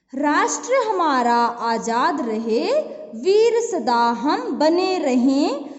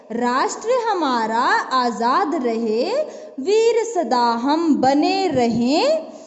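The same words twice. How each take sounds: No difference in how they are said.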